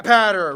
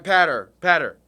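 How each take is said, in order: First: "patter" said slowly, with a flat a like in ladder; teaching how to say "patter" in his usual voice; careful pronunciation. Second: "Patter, patter" said twice, lower, with a crisp p and a flat a; patiently repeating "Patter, patter" to correct a friend; repeated pronunciation demo. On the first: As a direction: spell out "patter" so it rhymes with ladder. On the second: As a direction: drill "Patter, patter" like ladder. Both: Shown as a demonstration. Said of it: "it's like ladder, but pa".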